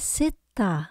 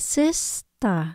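First: The middle S sound is left out. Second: The middle S sound is clearly pronounced. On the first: The speaker calls it wrong. "khi mà mình đọc nhanh mình đọc là sister. Sit, không có chữ S" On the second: The speaker calls it right. "Mình đọc là sister"

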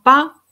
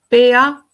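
First: The letters are blended into one syllable. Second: The letters are named separately, one by one. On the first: The speaker calls it right. "en vez de decir papá, pa" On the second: The speaker calls it wrong. "puedes decir pea, pea"

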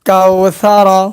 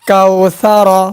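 Both takes have the same delivery.

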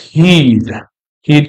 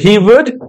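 First: The two words merge into one syllable. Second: Both words are said in full. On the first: "you contracted forms here" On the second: "So he would"

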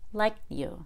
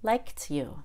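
First: The T is held without being released. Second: The T is released with a puff of air. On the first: "then the held T" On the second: "and then the aspirated T"

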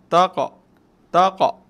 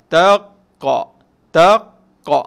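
First: The q bounce is short and soft. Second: The q bounce is long and strong. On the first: The speaker calls it right. "dia perlahan" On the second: The speaker calls it wrong. "lama tu tak boleh sebab yang tu dia kuat"

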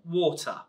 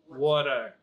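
First: It is said in a standard English accent. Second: It is said in an American accent. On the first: "In England we say water" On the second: "Now in America they say water"

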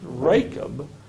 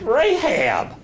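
First: The middle consonant is a hard k sound. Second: The middle consonant is a soft h sound. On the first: The speaker calls it wrong. "here it's pronounced Rachab. ... that CH is pronounced as a K" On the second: The speaker calls it right. "The person is not Rachab. It's Rahab"

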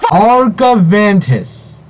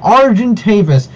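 First: The name ends with a 'vantus' sound. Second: The name ends with a 'tavis' sound. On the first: The speaker calls it wrong. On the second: The speaker calls it right.

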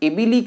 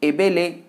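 First: The vowels are said as a clear 'ee'. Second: The vowels are said as an open 'eh'. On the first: The speaker calls it right. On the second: The speaker calls it wrong.

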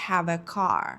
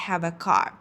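No difference in how they are said.

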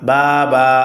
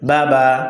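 First: The vowels are drawn out slowly. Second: The vowels are short and quick. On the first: The speaker calls it wrong. "বাবা হবে না" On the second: The speaker calls it right. "বলতে হবে বাবা"

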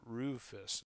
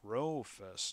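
First: The first syllable sounds like 'roo'. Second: The first syllable sounds like 'row'. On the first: The speaker calls it wrong. "not Rufus" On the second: The speaker calls it right. "It's Rofus, not Rufus. It's Rofus. Row"

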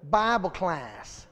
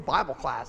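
First: It is said in an exaggerated, mocking way. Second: It is said in a plain, normal way.

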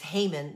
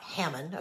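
First: The name is said the villain's way. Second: The name is said the speaker's surname way. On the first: This is the villain in the story. The speaker calls it right. "remember his name is Haman" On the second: This is the speaker's own family name. The speaker calls it wrong. "not Haman, okay, because that's my name"

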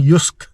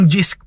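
First: The word begins with a Y sound. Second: The word begins with a J sound. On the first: The speaker calls it right. "Ang pronunciation daw ng JYSK ay Yusk" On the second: The speaker calls it wrong. "na binabasa natin dati"

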